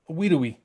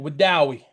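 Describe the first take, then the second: First: It is pronounced the way the spelling suggests. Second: It is pronounced the way locals say it. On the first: This is how an outsider would say it. The speaker calls it wrong. "the way you would think they're me- to be said" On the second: This is how people from the area say it. The speaker calls it right. "the names are actually"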